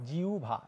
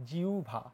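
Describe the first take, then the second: No difference in how they are said.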